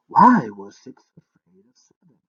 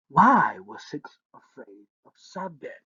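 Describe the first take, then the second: First: Much louder puzzled repeat; loud baffled musing. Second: Said in the usual way. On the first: Acted. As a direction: turn the riddle over aloud. Prince repeating riddle to himself.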